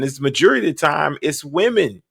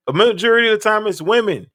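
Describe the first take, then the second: First: Said in the usual way. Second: Higher, faster, pressing the point home; emphatic repeat. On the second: Real, not acted. Commentator to viewers repeating the claim, emphatic. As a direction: hammer the claim a second time.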